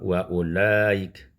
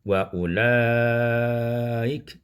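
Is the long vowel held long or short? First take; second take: short; long. First: The long vowel is kept short. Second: The long vowel is stretched out long. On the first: "boleh juga diqasar" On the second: "ma'al isba'"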